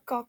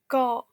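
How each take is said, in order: First: The final k is fully released. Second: The final k is cut short, unreleased. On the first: The speaker calls it wrong. "On dit pas ka" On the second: The speaker calls it right. "on dit ka"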